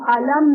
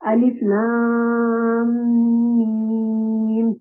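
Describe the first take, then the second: First: The letters are blended into one short word. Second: Each letter name is said separately. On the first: The speaker calls it wrong. "इनको हम अल, अल, अलम नहीं पढ़ सकते" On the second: The speaker calls it right. "अलिफ को अलग पढ़ेंगे, लाम को अलग पढ़ेंगे और मीम को अलग पढ़ेंगे"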